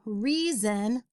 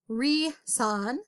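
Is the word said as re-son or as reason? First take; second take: reason; re-son. First: The word is said as the familiar reason. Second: The word is sounded out as re-son. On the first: The speaker calls it right. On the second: The speaker calls it wrong.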